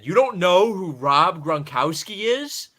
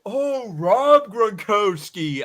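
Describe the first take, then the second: First: Loud, slow, incredulous; loud disbelief. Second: Put-on high, slow, dopey kid; dim kid voice. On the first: Retold or imitated. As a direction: call it out in disbelief. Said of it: "I said it so loud at him". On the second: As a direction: drag it out like a clueless kid. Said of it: "And he was like".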